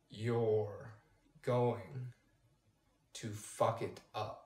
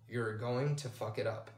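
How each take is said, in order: First: It is said much slower still. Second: It is said a third slower.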